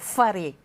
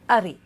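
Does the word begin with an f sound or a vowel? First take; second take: f sound; vowel. First: The word begins with an f sound. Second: The word begins with a vowel, no f. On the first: This is the Tahitian form. "maison en tahitien" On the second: This is the Rurutu form. "à Rurutu, on dira aré"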